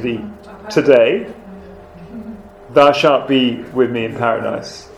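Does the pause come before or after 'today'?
after. The pause comes after the word today. The words are spoken today; paradise comes later. The speaker calls it wrong. "he was changing the emphasis"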